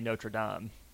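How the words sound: The name is pronounced with a French pronunciation. "Proper French should be"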